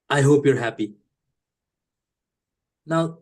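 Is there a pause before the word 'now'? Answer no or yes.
yes. There is a pause before the word now. A sincere wish, with now starting a new thought. "But that's not what I mean"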